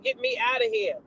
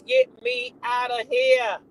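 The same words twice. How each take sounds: First: Much higher, softer mock plea; mock squeal. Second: Much higher, slow drawn-out plea; mock squeal. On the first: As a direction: squeak it out in fright. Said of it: "She said". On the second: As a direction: stretch the squeal for laughs.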